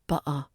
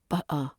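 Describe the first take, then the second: Both takes have the same delivery.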